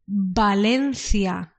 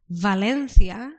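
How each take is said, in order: First: The word begins with a B-like sound. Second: The word begins with a V sound. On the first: "in Spanish we say Valencia. We haven't got the V sound" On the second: "in English you call Valencia"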